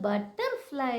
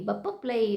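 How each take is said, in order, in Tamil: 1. வார்த்தையின் ஒவ்வொரு மெய்யெழுத்தும் முழுமையாக உச்சரிக்கப்படுகிறது. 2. மெய்யெழுத்துகள் எளிமையாக்கப்பட்டு, குழந்தைத்தனமாக, திரும்பத் திரும்ப 'p' ஒலிகளாக மாறியுள்ளன. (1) "அதை மாடிஃபை பண்ணி கொடுக்கணும்" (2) "அப்படின்னு அந்த குழந்தை சொல்லுது"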